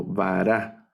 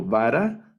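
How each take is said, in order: First: Vara slowed, stressed on the final -ra; acento en la última. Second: Vara stressed on the first syllable VA; wrong reading, VA-ra with a light ending; acento en la primera. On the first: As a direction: correct reading, va-RA, landing on the ending. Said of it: "sino vara". (vara lento, con el acento en la última sílaba) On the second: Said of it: "aquí no leo vara". (vara, con el acento en la primera sílaba) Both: Shown as a demonstration.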